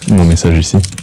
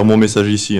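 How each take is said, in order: First: It is said with a deliberately classy, stylish flair. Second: It is said plainly, in passing, without flair. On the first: The speaker calls it right. "fais-le de manière classe" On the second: The speaker calls it wrong. "pas comme ça"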